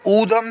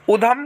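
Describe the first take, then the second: First: ऊधम with a long oo; ऊधम said correctly with a long oo; correct pronunciation. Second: उधम with a short u; उधम said wrongly with a short u; wrong pronunciation. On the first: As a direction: stretch the oo in ऊधम. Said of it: "सही होता है". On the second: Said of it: "गलत होता है". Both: Shown as a demonstration.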